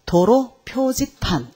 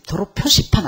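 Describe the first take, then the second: First: '표지판'을 한 음절씩 느리게 끊어 읽기; 강사가 '표지판'의 '지'를 또렷이 늘여 시범; 올바른 읽기 시범. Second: '표시판'의 가운데를 '시'로 읽기; '표시판'을 늘이지 않고 보통 빠르기로. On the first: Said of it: "도로 표시판 안 그러죠". ('표지판'을 천천히, 또박또박) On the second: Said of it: "안 그러죠". ('표시판'이라고 잘못 읽어 보이기) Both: Shown as a demonstration.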